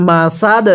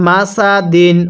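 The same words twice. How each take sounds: First: মাসাদ cut short on a closing d, no final vowel; stopping pronunciation. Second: Said in the usual way. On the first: Shown as a demonstration. Teacher shows how to pause on the word, মাসাদ ending in a stopped d. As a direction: end মাসাদ on a stopped d with a slight bounce. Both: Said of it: "ও যদি ওয়াকফ করি তাহলে কিভাবে পড়ব".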